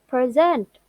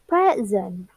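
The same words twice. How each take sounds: First: The stress is on the last syllable. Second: The stress is on the first syllable. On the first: It is used as a verb. "stress on last syllable. Most two syllables verb" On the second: It is used as a noun. "The first stress on first syllables. Most two syllables noun"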